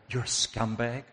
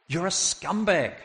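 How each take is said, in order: First: Questioning rebuke. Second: High, falling condemnation; indignant rebuke. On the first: Rebuke, first questioning take. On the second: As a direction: hurl the accusation higher and land it firmly. Rebuke repeated forcefully. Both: Acted.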